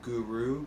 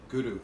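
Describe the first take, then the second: First: The R is plain, without any rolling. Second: The R is slightly rolled with the tongue tip. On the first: The speaker calls it wrong. "Instead of" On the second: The speaker calls it right. "using the tip of the tongue to the roof of the mouth, and it's a little bit of a rolled R there"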